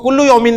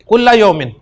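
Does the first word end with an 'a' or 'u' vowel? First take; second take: u; a. First: The first word ends with a 'u' vowel. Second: The first word ends with an 'a' vowel. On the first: The speaker calls it wrong. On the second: The speaker calls it right.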